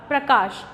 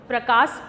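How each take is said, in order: First: प्रकाश said with a clear final sh, prakash; careful model of प्रकाश ending in sh; प्रकाश with a crisp sh sound; correct pronunciation. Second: प्रकाश said with final s, prakas; प्रकाश mispronounced as prakas; wrong pronunciation. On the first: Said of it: "इसका सही उच्चारण है". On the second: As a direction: demo of the mistake, प्रकाश ending in s not sh. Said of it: "जबकि ये गलत उच्चारण है". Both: Shown as a demonstration.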